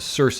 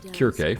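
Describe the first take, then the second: First: The name is said the usual way. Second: The name is said the ancient Greek way.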